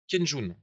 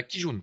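First: "Kenjun" said with "ken" for the first syllable; slip of the tongue. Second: "Kijun" said with "ki" for the first syllable; corrected pronunciation. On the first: Teacher slips on the Japanese term, mispronounced "Kenjun". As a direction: misspeak it as "Kenjun", ken-joun. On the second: Teacher corrects his Japanese term, careful "Kijun". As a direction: correct yourself to "Kijun", ki-joun. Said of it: "Excusez mon japonais". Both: Real, not acted.

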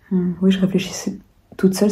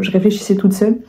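First: Hushed whispered repeat; whispering. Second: Said in the usual way. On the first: Real, not acted. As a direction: whisper "je réfléchissais toute seule".

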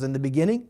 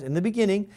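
First: Said in the usual way. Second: "in the beginning" lifted higher and stressed; emphatic phrase. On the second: Shown as a demonstration. Teacher stresses "in the beginning" to show emphasis. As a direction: lean on "in the beginning" to show it comes first. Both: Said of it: "to emphasize".

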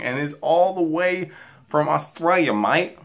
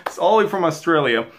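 First: Badly faked Aussie accent; horrible Australian accent. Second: Said in the usual way. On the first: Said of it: "That is my horrible, horrible accent". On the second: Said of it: "Um, but anyways".

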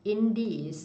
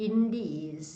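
First: Said in the usual way. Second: In these with the ee in these held long; long vowel. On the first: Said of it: "In these นะ เสียงยาว". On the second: Shown as a demonstration. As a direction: stretch the ee in these for the class. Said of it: "เสียงยาว".

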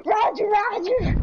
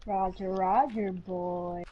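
First: High, perky catchphrase; pitched-up cheery acknowledgement; droid catchphrase. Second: Low, soft, trailing catchphrase; subdued, low-pitched radio acknowledgement; droid catchphrase. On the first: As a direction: pipe it up high, playfully. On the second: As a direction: drop it deep and quiet. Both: Pretend. Repeating droid catchphrase in play.

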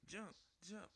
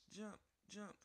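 The two takes are said the same way.

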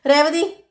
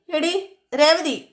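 First: A sharp rising shout of Revathi; loud call. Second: Slow, long call with Revathi stretched and falling; drawn-out yell. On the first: Sachi calls for his absent wife, sharp rising shout. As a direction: call Revathi out across the house, pitch rising. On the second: Sachi keeps yelling for his wife, slow drawn-out call. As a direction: drag out എടി, Revathi as a long falling holler. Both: Retold or imitated. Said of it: "ഉറക്കെ കിടന്ന് അലറുകയാണ്".

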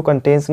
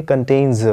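First: कंटेन्स with a hissed final s; wrong pronunciation. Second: कंटेन्स with a buzzed final z; correct pronunciation. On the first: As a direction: show कंटेन्स ending in plain s. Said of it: "इसको कंटेन्स नहीं". (कंटेन्स, आख़िर में "स" के साथ) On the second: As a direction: model कंटेन्स as "kan-tainz", drawing out the z. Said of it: "इसको पढ़ेंगे कंटेन्स". (कंटेन्स, आख़िर में "ज़" के साथ) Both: Shown as a demonstration.

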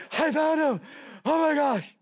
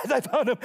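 First: Louder, high, breathless announcement; out of breath. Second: Mock wheezing, gasped through the words; out of breath. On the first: Acted. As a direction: act out a winded shepherd calling his find. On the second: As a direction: play a winded smoker gasping for air. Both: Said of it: "he's out of breath going".

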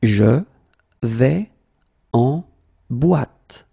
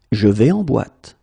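First: Slow, word by word. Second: Said in the usual way. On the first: Shown as a demonstration. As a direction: pause after every word. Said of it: "teacher drills word by word". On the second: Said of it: "teacher repeats full sentence".

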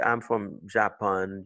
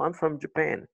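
First: "Japan" with full open vowels, JAH-pahn; no schwa in "Japan", French-style vowels; French-sounding Japan. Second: "Japan" as juh-PAN in a sentence; weak first vowel in "Japan", strong PAN; correct schwa in Japan. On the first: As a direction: mispronounce "Japan" with a clear "ah" in both syllables. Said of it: "Tu peux pas dire". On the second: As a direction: answer with English-sounding "Japan", stressed at the end. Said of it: "Donc, tu dis Japan". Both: Shown as a demonstration.

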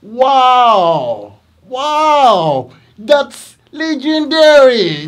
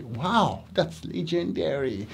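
First: Much higher, louder, slow amazed praise; teacher's loud, over-the-top praise for students; excited praise. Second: Teacher's soft repeat of the praise; quiet praise. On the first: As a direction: gush loudly like you are amazed. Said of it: "I say". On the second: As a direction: say it calmly and quietly. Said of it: "Yes, I say". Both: Retold or imitated.

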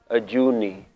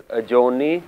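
First: "Ajuni" with a middle "oo", falling at the end; Mool Mantar form. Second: "Ajoni" with a middle "oh", rising at the end; Shabad form. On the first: Teacher contrasting the Mool Mantar form, "oo" vowel in "Ajuni". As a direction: let "uh-JOO-nee" fall to close on "Ajuni". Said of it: "you'll see it as". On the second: Teacher contrasting the Shabad form, "oh" vowel in "Ajoni". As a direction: lift the end of "uh-JOH-nee" for "Ajoni". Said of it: "in Shabads you will see it as". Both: Shown as a demonstration.

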